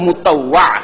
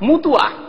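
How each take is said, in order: First: The middle 'ta-wa' is pronounced clearly and fully. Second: The middle is shortened to a single 'tu' sound. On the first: The speaker calls it right. "আর যদি স্পষ্ট বলতে" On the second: The speaker calls it wrong. "বাঙালিরা কি বলে?"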